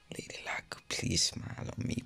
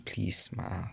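First: Hushed prayer to Lady Luck; whispered plea. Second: Said in the usual way. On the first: Real, not acted. Gamer whispering to Lady Luck before the pull, hushed. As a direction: breathe the wish out under your breath.

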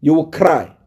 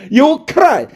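First: Said in the usual way. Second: Mocking taunt. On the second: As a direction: throw it back at him, high and gloating. Repeats the taunt after laughing.

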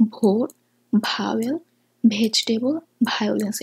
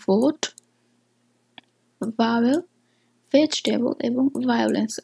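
First: ভোট ভাওয়েল said with hard Bengali bh; wrong bh sound. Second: ভাওয়েল with a light v, teeth on lip; correct soft v. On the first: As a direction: hit ভ hard with both lips. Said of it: "এটা সম্পূর্ণ ভুল". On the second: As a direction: say ভোট with a soft v. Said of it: "আমাদের উচ্চারণ করা উচিত ভি". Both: Shown as a demonstration.

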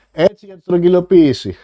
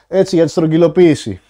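No difference in how they are said.

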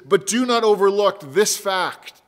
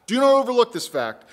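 First: Said in the usual way. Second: "Do not overlook this fact" repeated, higher, stress on "not"; emphatic repeat. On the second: Shown as a demonstration. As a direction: drive it home, hit "not".

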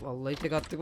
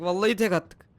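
First: Said in the usual way. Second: Louder, rising excitement; excited boast. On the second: Real, not acted. Player boasting about a single throw, loud and excited. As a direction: burst out louder on the repeat.

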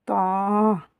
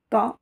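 First: "Ta" with the vowel held long and level. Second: "Ta" with a short, quick vowel. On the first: Teacher shows long vowels, drawn-out Ta. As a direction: stretch out "Ta" as "taaa". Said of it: "Avec les voyelles longues". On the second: Teacher shows short vowels, brief Ta. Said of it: "avec les voyelles courtes". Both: Shown as a demonstration.

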